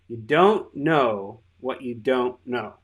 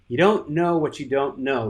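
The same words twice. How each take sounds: First: It is said louder and more slowly. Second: It is said at normal loudness and pace.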